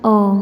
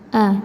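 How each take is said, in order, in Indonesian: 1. Vokalnya membulat, seperti o. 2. Vokalnya terbuka, seperti a. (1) "tidak dibaca o" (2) "Jelas kita baca a"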